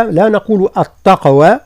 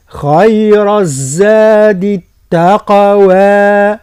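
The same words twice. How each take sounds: First: التقوى with the ta made emphatic like ta'; wrong emphatic ta. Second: Very slow, drawn-out tajweed recitation; Quran recitation. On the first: Teacher shows the wrong way, التقوى with heavy ta. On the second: Teacher models the verse for students in slow recitation. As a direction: chant it slowly with long vowels. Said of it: "هكذا". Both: Shown as a demonstration.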